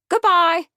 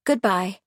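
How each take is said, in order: First: Very high, loud parrot squawk; brisk parrot. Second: Said in the usual way. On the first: A narrator's reading. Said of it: "remarked the parrot briskly". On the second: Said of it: "She stood and smiled".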